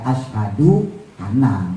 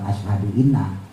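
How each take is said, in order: First: The second word begins with an a vowel. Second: The second word begins with an i vowel. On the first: The speaker calls it right. "kalau di tengah kata misalnya kayak ashadu ana" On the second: The speaker calls it wrong. "bukan ashadu inna"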